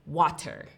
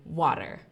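First: The middle T is a clear T sound. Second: The middle T sounds like a soft D. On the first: "in American English, we wouldn't say water" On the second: "We would say water. The T is a D"

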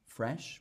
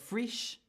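First: It is said in an Australian accent. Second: It is said in a New Zealand accent. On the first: "how I would say it in my dialect" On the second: "So you've got frish"

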